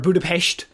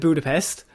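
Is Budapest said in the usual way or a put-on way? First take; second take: put-on; usual. First: The word is said with a different, copied pronunciation. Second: The word is said in its usual English way.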